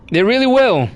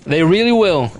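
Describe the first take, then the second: First: "will" stressed with a falling tune. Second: "really" stressed with a falling tune. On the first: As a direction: lean on "will", not "really". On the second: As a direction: lean on "really", let "will" drop. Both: Shown as a demonstration. Repeats line with new stress.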